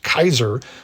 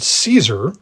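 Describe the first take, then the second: First: It begins with a k sound. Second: It begins with an s sound.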